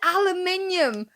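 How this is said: It is said the British way, five syllables. This is what we call it. "we it's it's aluminium"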